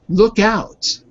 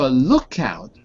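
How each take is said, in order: First: The stress falls on out. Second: The stress falls on look. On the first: It is the phrasal verb. "Stress is on out" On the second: It is the noun. "the stress is on look in that case"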